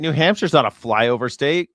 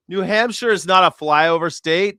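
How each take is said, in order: First: Said in the usual way. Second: Louder, higher insistence on "New Hampshire is not a flyover state"; emphatic correction. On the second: Acted. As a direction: push back hard on "not", louder and higher.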